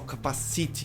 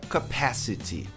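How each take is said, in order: First: The stress is on the last syllable. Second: The stress is on the second syllable. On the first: The speaker calls it wrong. "A maioria das pessoas coloca a tônica aí no final" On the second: The speaker calls it right. "A pronúncia correta é"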